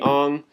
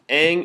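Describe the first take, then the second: First: The vowel sounds like the one in father. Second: The vowel sounds like the one in cat. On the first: This is the traditional form in its culture. The speaker calls it right. "is supposed to be" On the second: This is the form used in the original series. The speaker calls it wrong. "pronounced wrong"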